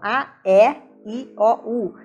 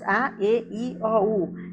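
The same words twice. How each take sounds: First: The E is pronounced with a very open vowel. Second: The E is pronounced with a closed vowel. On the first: This is how people in Rio de Janeiro say it. "No Rio de Janeiro, eles usam o E bem aberto" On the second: This is how people in São Paulo say it. "E aqui nós falamos"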